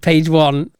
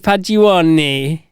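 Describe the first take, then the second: First: It is said in a plain English accent. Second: It is said in a put-on Italian accent. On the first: It refers to the first page of the menu. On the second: It sounds like an Italian dish name.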